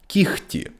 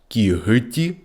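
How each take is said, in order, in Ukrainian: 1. Середній приголосний — глухий звук «х». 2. Середній приголосний — дзвінкий звук «г».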